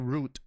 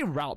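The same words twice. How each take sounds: First: The vowel sounds like the one in boot. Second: The vowel sounds like the one in out. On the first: The speaker calls it wrong. "It feels wrong to say route when we say routers" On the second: The speaker calls it right. "I say route because, you know, like routers"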